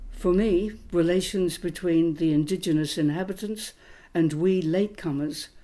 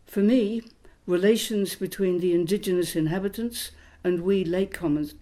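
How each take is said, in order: Both takes have the same delivery.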